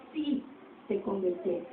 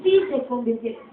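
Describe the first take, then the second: First: Drops almost to a whisper; quiet repeated echo; hushed echo. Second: Said in the usual way. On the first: Shown as a demonstration. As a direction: let it fall away quietly. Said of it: "repeated, much quieter". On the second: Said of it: "repeats softer".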